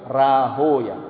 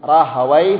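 First: The name ends in an 'oya' sound. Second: The name ends in a 'wai' sound. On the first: This is the original Persian form. The speaker calls it right. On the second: This is the commonly used form. The speaker calls it wrong.

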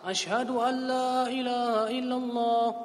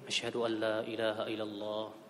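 First: It is said loudly, in a strong voice. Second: It is said softly, in a low voice.

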